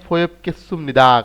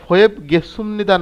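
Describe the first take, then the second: First: The second word starts with a hard k sound. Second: The second word starts with a soft g sound. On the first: The speaker calls it right. "এখানে ফোয়েব কেসুমনিদা" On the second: The speaker calls it wrong. "না হয়ে"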